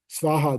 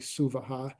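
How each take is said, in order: First: It is said with two syllables, no vowel after S. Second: It is said with three syllables, a vowel after S. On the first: The speaker calls it wrong. "you see Sva, Svaha there" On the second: The speaker calls it right. "it's actually Suvaha because that's how you, you say it"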